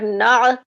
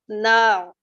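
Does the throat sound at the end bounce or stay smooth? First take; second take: bounced; smooth. First: The throat sound ends with a small bounce. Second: The throat sound is held smoothly without bouncing. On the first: The speaker calls it wrong. "it's not" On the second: The speaker calls it right. "without making jerk on it, without bouncing"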